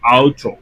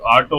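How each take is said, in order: First: It starts with an 'ow' sound, German style. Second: It starts with an 'aw' sound, English style. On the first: The speaker calls it right. "అదే జర్మన్ కి వచ్చేసరికి ఆవుచో" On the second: The speaker calls it wrong. "ఆటో అని చెప్పకూడదు. ఆటో వచ్చి ఇంగ్లీష్ లో చెప్తాం"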